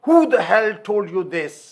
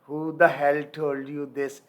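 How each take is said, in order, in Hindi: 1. यह गुस्से और बदतमीज़ी भरे लहजे में बोला गया है। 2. यह शांत और विनम्र लहजे में बोला गया है।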